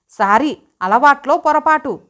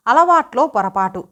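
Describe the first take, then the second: First: Higher-pitched, lightly faked panic; feigned fluster. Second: Said in the usual way. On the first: A narrator's reading. Wife echoes husband's excuse back at him, feigned fluster. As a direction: pretend to be a little flustered. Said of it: "కంగారు నటించింది".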